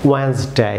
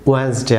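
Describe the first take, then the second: First: ওয়েডনেসডে as "wens-day", first D dropped; silent D. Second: ওয়েডনেসডে with the first D sounded, "wed-ens-day"; wrong pronunciation. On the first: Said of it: "silent থাকবে". (ওয়েডনেসডে-কে "ওয়েন্সডে", প্রথম ডি নীরব) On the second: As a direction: put a hard D after "we" in ওয়েডনেসডে. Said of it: "সম্পূর্ণ ভুল pronunciation". (ওয়েডনেসডে-র প্রথম ডি উচ্চারণ করে) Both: Shown as a demonstration.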